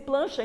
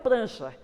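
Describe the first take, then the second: First: The cluster is said with an L sound. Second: The cluster is said with an R sound. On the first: The speaker calls it wrong. "Tem que dizer plancha e não prancha" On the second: The speaker calls it right. "o correto é prancha"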